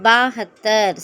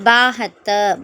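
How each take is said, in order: Both takes have the same delivery.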